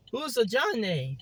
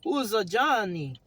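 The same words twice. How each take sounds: First: "Johnny" repeated as "jon-AY"; character voice, "Johnny" with a long "ay" ending; corrected Johnny. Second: "Johnny" said the ordinary way, ending in "ee"; character voice, "Johnny" as "JON-ee"; mispronounced Johnny. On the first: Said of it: "It's Johnny". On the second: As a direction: ask with "Johnny" ending on an "ee" sound. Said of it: "It's not Johnny". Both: Acted.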